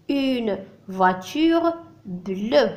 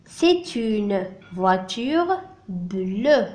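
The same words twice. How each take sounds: First: Very slow "Une voiture bleue"; drawn-out teacher demo; slow model answer. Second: Extremely slow "C'est une voiture bleue"; drawn-out teacher demo; very slow model answer. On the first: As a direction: repeat it slowly for the class. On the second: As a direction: spell out the answer word by word. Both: Shown as a demonstration. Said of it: "Elle est de quelle couleur".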